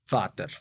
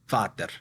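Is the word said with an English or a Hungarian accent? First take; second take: Hungarian; Hungarian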